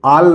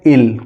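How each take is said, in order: First: The vowel is an open 'ah' sound. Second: The vowel is a short 'ih' sound. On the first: The speaker calls it wrong. "आल नहीं पढ़ेंगे" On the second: The speaker calls it right. "इसको पढ़ेंगे इल"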